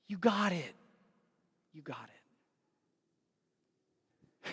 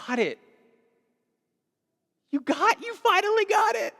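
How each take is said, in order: First: Softer, fading almost to a breath; tender and quiet. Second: Proud exclaiming. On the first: Jesus looking at us, quiet and tender. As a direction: say it gently, like a proud parent. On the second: Jesus rejoicing over Zacchaeus, building to a joyful shout. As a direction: swell up into a proud, delighted cry. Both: Retold or imitated.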